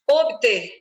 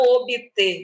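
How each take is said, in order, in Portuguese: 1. Não se ouve nenhum som de vogal entre o b e o t. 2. Ouve-se um som de i extra entre o b e o t. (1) "Não tem este izinho entre as consoantes mudas" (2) "e não"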